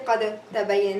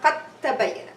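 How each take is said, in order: First: The d is released separately with an echoing bounce. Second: The d disappears into a doubled t sound. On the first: The speaker calls it wrong. "I won't have qalqala on the dal here. I'm not gonna say" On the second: The speaker calls it right. "I'm gonna merge the dal into the ta and pronounce it with shadda"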